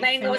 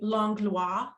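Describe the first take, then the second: First: The name is pronounced the English way. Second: The name is pronounced the French way. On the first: This is the local pronunciation, acceptable outside French areas. "a perfectly great Langlois, phonetic way" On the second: This is the original pronunciation used in Quebec or France. "it's actually Langlois"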